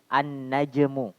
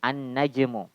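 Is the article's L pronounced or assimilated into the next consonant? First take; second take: assimilated; assimilated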